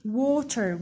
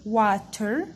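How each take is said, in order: First: "Water" as WAW-ter; long O sound. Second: "water" with an open ah, as spelt; wrong A sound. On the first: Teacher showing how to say Water, with long aw. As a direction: say "Water" with a long aw in the first syllable. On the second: Teacher showing how not to say water, with ah. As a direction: say "water" as WAH-ter. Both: Shown as a demonstration. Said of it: "we don't say water".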